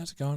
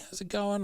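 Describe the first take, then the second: First: It is said in a plain, casual tone. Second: It is said in a gushing, very friendly tone. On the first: He is being his ordinary self. "he's just a normal guy" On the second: He is putting on his on-camera persona. "super nice"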